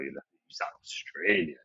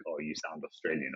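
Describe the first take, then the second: First: Slow, drawn-out, exaggerated Australian accent; deep Australian accent. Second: Said in the usual way. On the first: Shown as a demonstration. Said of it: "like, a really hot, well, not harsh". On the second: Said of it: "that's my sort of, like, scale, right?".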